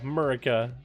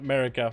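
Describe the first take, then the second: First: The word is said with an exaggerated rural twang. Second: The word is said in a plain, neutral accent. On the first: The speaker calls it right. "add a little bit extra hick in there" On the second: The speaker calls it wrong. "not America"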